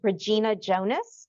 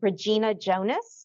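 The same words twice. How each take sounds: First: The name is pronounced the English way. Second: The name is pronounced the English way.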